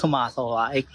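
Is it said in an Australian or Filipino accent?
Australian. It is said imitating the local Australian accent.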